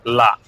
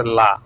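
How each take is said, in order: First: লা cut off sharply, stopping right after; la then stop. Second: লা said as a full open syllable, slowed; plain la. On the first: Teacher shows the apostrophe form, লা clipped short and stopped. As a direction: say লা and stop dead, nothing after it. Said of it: "বলেই থেমে যেতে হবে". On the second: Teacher shows the plain article, লা said full and slow. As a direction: give লা its full vowel, slowly. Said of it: "সেই লার উপরে কিছু নেই". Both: Shown as a demonstration.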